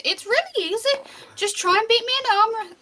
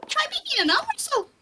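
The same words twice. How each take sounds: First: High, squeaky dwarf voice; squeaky little challenge; high-pitched voice. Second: Quick, extremely high squeak; tiny squeaky dwarf, very high and fast; voice kept up higher. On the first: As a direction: pipe it up high, encouraging. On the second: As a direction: push right up into top falsetto. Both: Acted. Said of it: "trying to keep that voice up higher".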